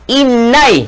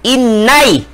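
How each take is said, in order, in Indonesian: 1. Kata ini berakhir dengan diftong 'ai'. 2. Kata ini berakhir dengan diftong 'ai'.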